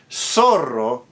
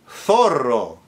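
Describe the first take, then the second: First: The z is pronounced as an s sound. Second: The z is pronounced as a th sound. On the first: "in Latin American Spanish" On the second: "fox in Castilian Spanish"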